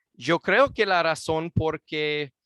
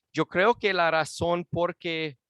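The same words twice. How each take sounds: The two takes are said the same way.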